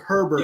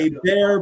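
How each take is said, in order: First: The name is said like 'her-bert' with h. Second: The name is said like 'ay-bear' without h. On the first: "but it's spelled Herbert" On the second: "It's a bear"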